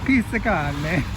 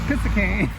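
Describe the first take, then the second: First: The name is pronounced in a careful, clear way. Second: The name is pronounced in a sloppy, mangled way. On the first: The speaker calls it right. "Got it" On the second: The speaker calls it wrong. "if you did really bad pronunciation"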